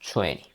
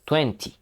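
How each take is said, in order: First: The final t sound is dropped. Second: The final t sound is pronounced. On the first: The speaker calls it right. "Vamos a eliminar la T final" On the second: The speaker calls it wrong. "yo no pronuncio veinte"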